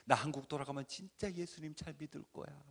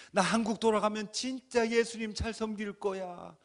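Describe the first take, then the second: First: Said in the usual way. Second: Loud, higher fervent vow; crying out a vow. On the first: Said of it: "수백 번을 외치죠". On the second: Retold or imitated. A man vowing to God, shouting. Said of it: "그렇게 외치고".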